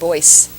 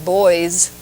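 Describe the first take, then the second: First: The word ends in an s sound. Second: The word ends in a z sound. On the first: The speaker calls it wrong. "pretending to make a mistake" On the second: The speaker calls it right. "you don't add the S sound"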